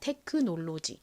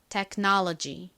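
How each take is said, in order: First: It is said with Korean-style syllables and vowels. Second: It is said with American vowels and stress. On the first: "한국식으로 먼저 읽어보면 테크놀로지가 됩니다" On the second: "미국식 원어 발음으로 좀 버터를 발라서"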